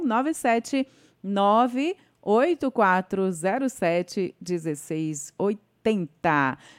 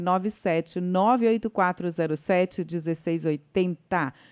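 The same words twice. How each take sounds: First: It is said very slowly and carefully. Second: It is said at normal, quicker speed.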